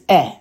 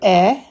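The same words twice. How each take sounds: First: The vowel is short and quick. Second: The vowel is held longer. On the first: This is the reduced chatef segol vowel. "The chatef segol is eh" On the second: This is the full segol vowel. "Instead of eh"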